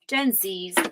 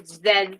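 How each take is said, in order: First: The letter is said as zee. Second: The letter is said as zed. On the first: "I grew up learning Z in America" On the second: "as we say in Canada"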